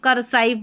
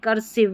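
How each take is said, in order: First: The last syllable has a long 'eye' vowel. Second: The last syllable has a short 'i' vowel. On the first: The speaker calls it wrong. "ऐसे नहीं पढ़ देंगे" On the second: The speaker calls it right. "नहीं करसिव"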